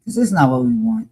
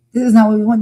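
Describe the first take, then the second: First: Said in the usual way. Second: "not" hit harder, pitch up; "This is not what we want" pushed higher on "not"; emphatic repeat. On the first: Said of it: "repeated louder". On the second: Real, not acted. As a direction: insist on it, more forcefully on "not". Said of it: "repeated after quieter take".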